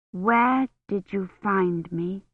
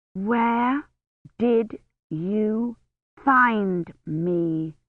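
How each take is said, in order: First: Slow, each word stressed; emphasizing the words. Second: Each word stressed; emphasizing the words. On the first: Kivrin asking the knight aloud, slow and emphatic. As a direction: say it slowly, pressing each word. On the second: Kivrin rehearsing in her head, each word stressed. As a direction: copy the knight's emphatic style. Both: A narrator's reading. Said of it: "emphasizing the words the way Gawain had".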